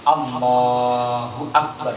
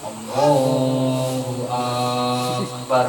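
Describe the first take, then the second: First: The first vowel of 'akbar' is kept short. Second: The first vowel of 'akbar' is drawn out. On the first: The speaker calls it right. "Langsung masuk" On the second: The speaker calls it wrong. "tidak sah"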